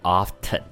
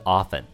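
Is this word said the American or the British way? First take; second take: British; American. First: It is said in a British accent. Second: It is said in an American accent. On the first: "那英国呢，则会念often" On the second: "美国人呢，大部分会念的是often"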